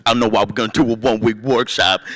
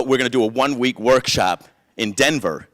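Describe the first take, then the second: First: Exaggerated put-on voice imitating a buddy; mock friend's voice. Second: Said in the usual way. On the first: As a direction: ham up an odd voice for the friend. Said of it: "He doesn't talk like that". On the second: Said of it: "He talks pretty normal".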